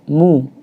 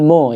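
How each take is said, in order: First: The vowel is a full rounded u. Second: The vowel sounds like an o. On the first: The speaker calls it right. "harus disempurnakan" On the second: The speaker calls it wrong.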